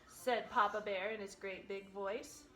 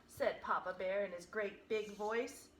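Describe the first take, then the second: Both takes have the same delivery.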